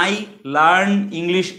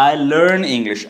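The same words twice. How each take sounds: First: "I learn English" with "learn" as broad "laarn"; wrong pronunciation. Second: "I learn English" with gliding "I" and "lurn"; correct pronunciation. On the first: Teacher demonstrating the mistake to learners, mispronounced demo. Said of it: "এভাবে বলবো না". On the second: Teacher leading repeat-after-me practice, careful pronunciation. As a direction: model "I learn English" carefully, "learn" with central vowel. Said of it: "এরকম করেই বলো". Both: Shown as a demonstration.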